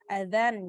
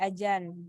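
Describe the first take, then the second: First: It is said with standard Arabic sounds. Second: It is said with a local sound substitution.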